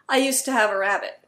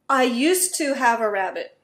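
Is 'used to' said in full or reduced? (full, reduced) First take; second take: reduced; full. First: 'Used to' runs together into a reduced form. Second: Each word of 'used to' is said carefully.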